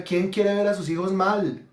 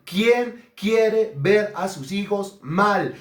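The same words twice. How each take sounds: First: Said in the usual way. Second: Very slow, word by word; slow emphatic repetition. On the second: Real, not acted. Preacher challenging parents about their children, slow and emphatic. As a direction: space out every word to drive it home. Question repeated slowly for emphasis.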